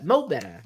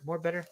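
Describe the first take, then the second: First: It is said in a Southern way. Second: It is said in a standard way.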